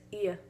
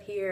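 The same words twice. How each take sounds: First: "here" ending in a vowel, no R; R-dropped "here". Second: Said in the usual way. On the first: Shown as a demonstration. Student showing plantation speech, "here" without its R. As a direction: say "here" as old Southern "he-ah". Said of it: "drop the R and replace it with a vowel sound". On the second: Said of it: "instead of "here".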